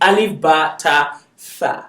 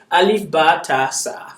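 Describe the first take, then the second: First: The last syllable begins with a th sound. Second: The last syllable begins with an s sound. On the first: The speaker calls it right. "It's alif ba ta tha" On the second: The speaker calls it wrong. "Some people call it sa because it's hard for them to pronounce"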